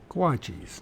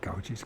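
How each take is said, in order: First: The first syllable is said as 'gua'. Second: The first syllable is said as 'gau'. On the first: The speaker calls it right. "Guachis, not gauchis" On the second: The speaker calls it wrong. "not gauchis"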